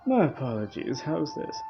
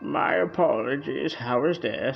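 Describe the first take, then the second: First: It is said without the deep granny voice. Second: It is said in a deep granny voice.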